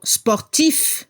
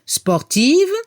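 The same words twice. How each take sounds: First: Sportif ending in a crisp f; sportif, let the final f be heard. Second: Sportive ending in a voiced v; sportive, buzz the final v; final V heard. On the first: Teacher showing the masculine ending to students. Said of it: "Al masculino se escucha la F al final". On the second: Teacher showing the feminine ending to students. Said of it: "y al femenino la V". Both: Shown as a demonstration.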